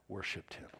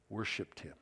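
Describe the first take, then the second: The two takes are said the same way.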